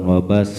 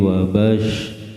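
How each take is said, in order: First: The final consonant is a plain 's' sound. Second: The final consonant is an 'sh' sound. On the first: The speaker calls it wrong. "bukan wabas" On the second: The speaker calls it right. "tapi wabash"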